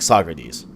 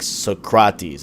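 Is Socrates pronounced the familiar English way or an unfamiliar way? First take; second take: familiar; unfamiliar. First: The name is pronounced the familiar English way. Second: The name is pronounced in an unfamiliar way. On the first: This is how people usually say the name. "how we've heard them" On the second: This is how the game's trailer says the name. "they pronounce the names differently"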